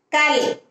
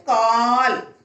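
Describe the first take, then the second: First: கல் with a short, high "a"; short vowel. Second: கால் with a long held "aa"; long vowel. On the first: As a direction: keep the vowel of கல் brief. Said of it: "துணைக்கால் போட்டு கால்". (கல் குறிலாக, குறுக்கி) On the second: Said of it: "துணைக்கால் போட்டு". (கால் நெடிலாக, நீட்டி) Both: Shown as a demonstration.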